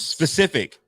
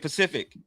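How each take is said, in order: First: The word begins with an s sound. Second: The word begins with a p sound. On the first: The speaker calls it right. "Yes, specific" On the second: The speaker calls it wrong. "Some people say Pacific, and it's not right"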